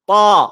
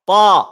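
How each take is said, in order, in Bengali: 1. স্বরধ্বনিটি খোলা, ছড়ানো ঠোঁটে উচ্চারিত হয়। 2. স্বরধ্বনিটি খোলা, ছড়ানো ঠোঁটে উচ্চারিত হয়।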